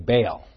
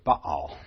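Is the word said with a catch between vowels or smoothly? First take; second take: smoothly; catch. First: The vowels run together without any break. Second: A brief stop separates the two vowels. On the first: "We usually say Baal" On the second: "The Hebrew would say Baal"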